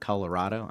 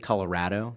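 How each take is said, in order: First: It is said with the outsider pronunciation. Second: It is said with the local pronunciation. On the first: This is how people elsewhere say it. "not Colorado" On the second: This is how people who live there say it. "the people out there say Colorado"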